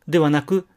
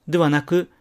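Both takes have the same delivery.

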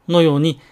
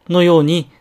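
The two takes are said the same way.

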